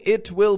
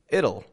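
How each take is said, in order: First: It is said as two full words. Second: It is said as one contracted word. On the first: The speaker calls it wrong. "I'm not saying it will" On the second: The speaker calls it right. "I'm saying it'll"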